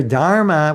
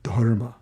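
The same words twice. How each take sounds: First: "dharma" drawn out in broad American vowels; wrong "dharma". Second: "dharma" in careful Sanskrit style, lower; correct "dharma". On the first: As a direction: say "dharma" with a long English "dar". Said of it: "It's not your dharma". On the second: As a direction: say "dharma" pedantically, with a rounded short vowel. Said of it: "It's dharma". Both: Shown as a demonstration.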